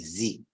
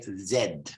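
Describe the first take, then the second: First: The letter is said as zee. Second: The letter is said as zed. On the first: "because in American English ... They say Z" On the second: "in British English, we say Z"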